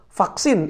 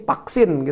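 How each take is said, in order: First: The word begins with an f-like sound. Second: The word begins without an f sound.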